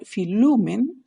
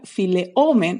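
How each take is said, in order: First: Filumen as one word with u in the middle; right form filumen, merged smoothly; contracted form. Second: File omen with the vowels kept apart, omen held long; wrong form file omen, split in two; uncontracted form. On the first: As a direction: filumen as the correct contracted result. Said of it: "va a quedar filumen". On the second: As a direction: file omen shown as what it does not become. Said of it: "no va a quedar file omen". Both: Shown as a demonstration.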